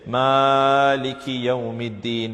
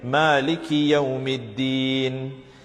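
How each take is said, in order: First: The word Maliki is dragged out too long. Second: The word Maliki is said without extra length. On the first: The speaker calls it wrong. "tend to drag the word Maliki unnecessarily" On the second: The speaker calls it right. "The right way to read it"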